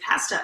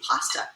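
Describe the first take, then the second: First: "pasta" with a flat a as in cat, PAS-tuh; old pronunciation. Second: "pasta" with an open ah, PAH-stuh; new pronunciation. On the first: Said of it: "I think I used to say pasta". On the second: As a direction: say "pasta" with the a of "father". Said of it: "and now I say pasta". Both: Shown as a demonstration.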